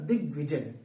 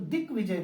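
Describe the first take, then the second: First: The consonant before 'vijay' is a g sound. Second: The consonant before 'vijay' is a k sound. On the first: The speaker calls it right. "आधा ग होगा" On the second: The speaker calls it wrong. "दिग्विजय नहीं बल्कि क नहीं होगा"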